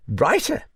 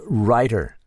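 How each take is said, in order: First: Writer with a high, rising, doubtful lilt; the old lady quizzing the word Writer; Duchess echoing writer. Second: Said in the usual way. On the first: Acted. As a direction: repeat Writer as a pitched-up scoffing question. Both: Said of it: "Writer, by gad".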